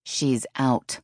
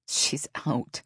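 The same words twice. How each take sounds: First: Firm, insistent protest; a touch of stubborn objection; mildly argumentative. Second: Lightly amused, easy statement; a touch of amused disbelief; understated chuckle. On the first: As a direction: hold your ground on the call. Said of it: "Dale continued to argue". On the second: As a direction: say it as if it's a joke. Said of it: "Dale chuckled". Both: A narrator's reading.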